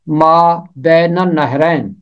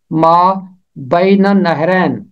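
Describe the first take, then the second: First: ما بین النہرین with بین as ben; Urdu pronunciation. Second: ما with a pause, then بین as bain, النہرین as annahrain; Arabic way: ما, pause, bain annahrain; Arabic pronunciation. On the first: Teacher contrasts the Urdu reading of ما بین النہرین. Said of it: "اگر آپ اردو میں پڑھیں گے". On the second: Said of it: "اگر آپ عربی تلفظ کریں گے". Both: Shown as a demonstration.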